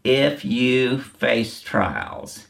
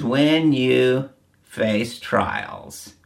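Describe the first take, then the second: First: If stretched very slowly and hit hard, the rest falling; stress on IF. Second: When stretched very slowly and hit hard, the rest falling; stress on WHEN. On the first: Preacher contrasting IF with WHEN, very slow. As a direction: drag out If you face trials as the rejected wording. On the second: Preacher stressing WHEN to the congregation, very slow. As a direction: drag out When you face trials word by word. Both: Shown as a demonstration. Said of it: "He didn't say".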